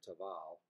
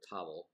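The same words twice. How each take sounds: First: "Tavel" with the weight on the second syllable; "Tavel" ending in an open ah-l; French-style Tavel. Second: "Tavel" with the weight on the first syllable; "Tavel" with a weak second syllable; anglicized Tavel. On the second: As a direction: say "Tavel" like TAH-vul. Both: Shown as a demonstration. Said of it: "again, tomato, tomato".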